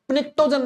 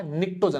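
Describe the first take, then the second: First: "निक्टोजन" said wrongly with a sounded p before the n; P pronounced. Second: "निक्टोजन" starting straight on the n; silent P. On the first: Teacher warns students off sounding the P, wrong "निक्टोजन" with p pronounced. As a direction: put an audible p at the front of "निक्टोजन". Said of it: "नहीं बोलना है". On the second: Teacher shows students the correct word, silent-P "निक्टोजन". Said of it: "निक्टोजन बोलना है". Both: Shown as a demonstration.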